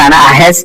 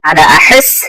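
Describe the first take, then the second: First: The h is a plain, light sound. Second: The h is a strong, breathy throat sound. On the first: The speaker calls it wrong. "এখানে যদি আনা আহাস আহাস বলেন এটা ভুল হবে" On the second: The speaker calls it right. "হা এর উচ্চারণটা ঠিক মতো করবেন"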